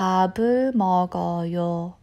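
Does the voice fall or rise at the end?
falls. The voice falls at the end. The speaker states that they are having a meal. "I'm having a meal"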